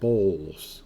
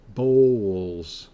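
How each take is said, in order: First: No W sound is heard in the word. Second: A W sound is heard in the word. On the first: "I just say bowls" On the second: "I'll do it pronouncing the W"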